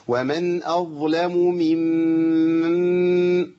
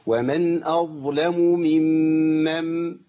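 First: ممن with both مims run together, long; merged mims. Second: ممن with the two مims split apart; separated mims. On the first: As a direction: blend the two مims of ممن in one hold. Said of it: "اسمعوا الخطأ". (دمج الميمين في ممن خطأ) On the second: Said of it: "لازم أفصل بين الميم الأولى والثانية". (فصل الميمين في ممن) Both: Shown as a demonstration.

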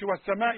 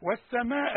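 First: والسماء cut short; wrong reading. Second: والسماء with long مد; correct reading. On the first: Teacher shows the short error. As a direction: clip the مد in والسماء. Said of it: "ما تقولش". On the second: Teacher stretches the مد. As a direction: hold the final vowel of والسماء. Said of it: "ده مد واجب". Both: Shown as a demonstration.

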